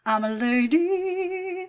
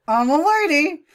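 First: Sung, high, slow, held notes; sung parody. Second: High, loud mock lady voice; parody. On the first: Acted. Commentator improvising a parody, slow high singing. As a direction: croon it with a long last note. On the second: Commentator improvising a parody, loud mock lady voice. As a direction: declare it in a hammed-up lady voice. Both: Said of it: "come up with parodies".

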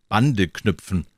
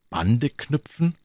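First: BANDE KNÜPFEN stated firmly, stress on Bande; explanatory statement. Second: BANDE KNÜPFEN higher and slow, rising at the end; questioning echo. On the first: Fox explains taming to the prince, explanatory statement. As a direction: say Bande knüpfen as a settled answer, falling away. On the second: Little prince asks the fox what it means, questioning echo. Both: Acted.

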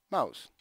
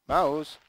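First: Short call at normal volume; name the mouse as a first warning. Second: Raised, higher call to the mouse; louder warning. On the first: Addressing failing mouse, first call. (richiamo contenuto al mouse) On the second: Repeats call as mouse fails. (richiamo al mouse a voce alta) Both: Real, not acted.

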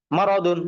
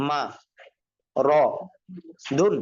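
First: "মা র দুন" run together as one word, louder; whole word "মা র দুন" after sounding out; joined-up reading. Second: Syllable by syllable, long pauses between "মা", "র", "দুন"; broken pronunciation. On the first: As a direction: blend "মা র দুন" firmly without breaks. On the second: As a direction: sound out "মা ... র ... দুন", each alone. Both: Shown as a demonstration. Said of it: "ভাঙ্গা উচ্চারণ কিভাবে?".

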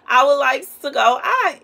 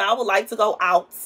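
First: I would like to go OUT, higher and louder; insistent repeat. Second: Said in the usual way. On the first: Real, not acted. Longing to get out, she repeats it insistently. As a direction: push the wish out harder.

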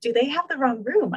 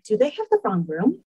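First: Incredulous laugh. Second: Stunned disbelief. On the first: Retelling her shock to the host, laughing incredulously. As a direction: repeat it with a laugh, higher and disbelieving. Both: Retold or imitated. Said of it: "and being like".

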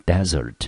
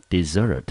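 First: Desert with the stress on the first syllable, DE-sert; teacher says desert as DE-sert, the noun. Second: Desert with the stress on the second syllable, de-SERT; teacher says desert as de-SERT, the verb. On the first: Teacher demonstrating the noun for students, stress on the first syllable. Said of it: "但是它的重音落在第一音节的时候". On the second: Teacher demonstrating the verb for students, stress on the last syllable. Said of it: "当它放在第二音节的时候". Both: Shown as a demonstration.

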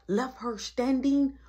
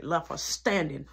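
First: "standing" stretched out slow and high; emphatic repeat. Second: Said in the usual way. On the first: Real, not acted. Telling viewers he left her standing, slow emphatic repeat. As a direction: draw out "standing", pitched well up.

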